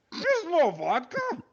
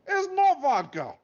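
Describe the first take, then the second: First: Even higher, louder, slow anguished Russian wail; guard repeating his grievance, louder, in a Russian accent; outraged Russian accent. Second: High, louder, slow outraged Russian guard; guard lamenting there was no vodka, in a Russian accent. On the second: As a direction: wail the betrayal in a Russian accent. Guard's betrayal retold. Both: Acted.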